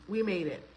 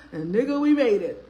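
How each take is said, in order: First: Said in the usual way. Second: Louder, laughing through the words. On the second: Real, not acted. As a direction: burst out laughing as you repeat it. Repeats it bursting into laughter.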